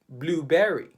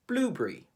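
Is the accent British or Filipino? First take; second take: Filipino; British. First: Spoken with a Filipino English accent. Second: Spoken with a British English accent. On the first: "We pronounce it blueberry" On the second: "The Brits would say blueberry"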